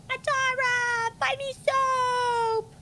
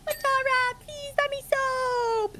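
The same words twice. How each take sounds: First: Much higher, slow whiny plea; imitating Matara. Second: Much higher, slow put-on plea; imitating Matara. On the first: Calling to the friend in her own high pleading voice. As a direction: beg for soap in a high put-on friend voice. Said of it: "You sounded just like her". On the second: Playing the friend begging for soap, high and slow. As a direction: whine it up high like her. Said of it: "How did I sound like her?".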